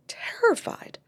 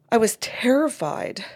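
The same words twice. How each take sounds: First: Retold whisper. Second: Said in the usual way. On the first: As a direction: repeat "terrified" as a breathy whisper with no voice. Mom confesses fear in session.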